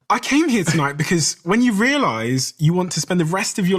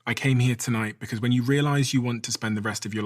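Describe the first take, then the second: First: It is said in a surprised tone. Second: It is said in a plain, neutral tone.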